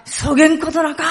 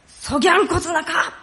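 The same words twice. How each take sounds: First: Higher, louder Hakata dialect denial. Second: High-pitched amateur Kumamoto dialect. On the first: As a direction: protest emphatically in Hakata dialect. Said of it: "博多弁だったら". (博多弁で強く否定) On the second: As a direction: deny it emphatically in Kumamoto dialect. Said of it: "熊本弁だったら". (熊本弁で声高に否定) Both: Shown as a demonstration.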